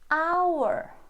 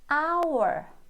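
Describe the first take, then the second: First: The word begins directly with a vowel sound. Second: The same.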